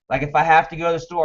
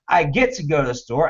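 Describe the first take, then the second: First: The voice sounds tight and reluctant. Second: The voice sounds lifted and enthusiastic.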